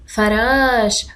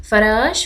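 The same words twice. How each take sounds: First: فراش said slowly with a long ش; teacher repeating فراش slowly and clearly; slow model word. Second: Said in the usual way. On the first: Shown as a demonstration. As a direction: stretch فراش out for the class. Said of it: "أشاهد فراش".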